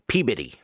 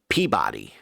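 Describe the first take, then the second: First: It is said in the local Massachusetts way. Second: It is said the way the spelling suggests. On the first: "In Massachusetts, they pronounce that shit Peabody" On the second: "in my head, I would read that as Peabody"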